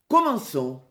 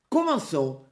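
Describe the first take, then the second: First: Firm call, only slightly raised; loud call. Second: Said in the usual way. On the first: A narrator's reading. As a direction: give a restrained storybook shout to start. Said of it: "Petit-Jean cria d'une voix forte". (appel ferme, d'une voix un peu forte) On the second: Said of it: "répétèrent Will et Robin".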